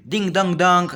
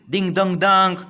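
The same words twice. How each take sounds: First: Higher, louder bell-like ding dong; imitating a bell. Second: Sung-out ding dong, higher and louder; imitating a bell. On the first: Boy playing riverboat rings the bell. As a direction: chime it out again like a bell. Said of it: "Then he would shout again". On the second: Boy playing riverboat calls out like a bell. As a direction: ring it out like a boy's toy bell. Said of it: "like a bell". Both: A narrator's reading.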